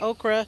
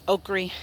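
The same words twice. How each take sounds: First: It is said in a general, non-Southern pronunciation. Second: It is said in a Southern pronunciation.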